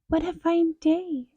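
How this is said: It is said in a high squeaky voice.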